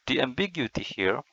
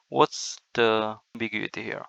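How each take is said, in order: First: A whispered echo of the question; whispered repeat. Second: Said in the usual way. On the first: Shown as a demonstration.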